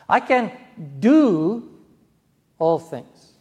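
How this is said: The stress falls on the word do. One can act rather than be passive. "I don't have to be passive. I can take action"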